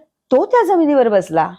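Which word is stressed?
तो. The stress is on the word तो.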